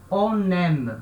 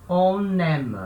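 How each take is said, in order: Both takes have the same delivery.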